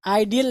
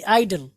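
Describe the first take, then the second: First: आइडियल in three syllables; mistaken pronunciation. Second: आइडल in two syllables; correct pronunciation. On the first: Teacher warns students off it, आइडियल with added "ee". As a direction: say आइडियल as "eye-dee-al". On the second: Teacher corrects students, आइडल with no "ee". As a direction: say आइडल as "eye-dul". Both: Shown as a demonstration. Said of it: "आइडियल नहीं".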